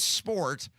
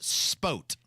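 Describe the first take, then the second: First: The word is said with an R sound. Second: The word is said without an R sound. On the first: This is the word as written in the lyric. "it is technically the lyric is sport" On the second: This is how the singer actually sings it. "He pronounces it spote"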